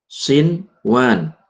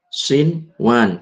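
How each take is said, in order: First: The n sound is pronounced clearly. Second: The n sound is pronounced clearly.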